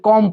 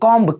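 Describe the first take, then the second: First: The word ends on m with no b sound. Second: The word ends with an audible b sound. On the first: The speaker calls it right. "यहाँ पे कॉम पढ़ेंगे" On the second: The speaker calls it wrong. "हम लोग भी बचपन में ना इसको कॉम्ब पढ़ा करते थे"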